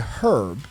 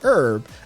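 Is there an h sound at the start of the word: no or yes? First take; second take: yes; no. First: The word starts with an audible h sound. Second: The word starts with a vowel, no h sound. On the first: This was adopted to sound upper class. "so let's say herb instead" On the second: This is the original borrowed pronunciation. "originally they pronounced it herb"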